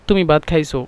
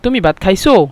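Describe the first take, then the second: First: The sentence is said plainly with no push. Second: The last word gets a sharp upward push. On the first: It states that the listener has eaten. "আমরা যদি সিম্পলভাবে বলি" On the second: It asks whether the listener has eaten. "খাইছো দিয়া মানে একটা ঠেলা দেই, ধাক্কা দিই"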